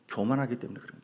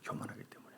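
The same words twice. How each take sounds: First: Said in the usual way. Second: 교만하기 때문에 breathed out as a whisper; a whispered repeat of 교만하기 때문에 for emphasis; whispered echo. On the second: Shown as a demonstration. 설교자가 회중에게 속삭이듯 되풀이하며, whispered.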